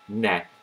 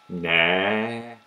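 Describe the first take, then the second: First: The vowel is short and plain. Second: The vowel is long and emphasized. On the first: "instead of saying ne" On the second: "in a long way with emphasis"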